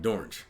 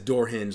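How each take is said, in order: First: It is blended into one word rhyming with orange. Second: It is said as two separate, clear words. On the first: The speaker calls it wrong. "pronounced it in a way that made it sound like orange" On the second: The speaker calls it right. "Nobody says door hinge like dorange"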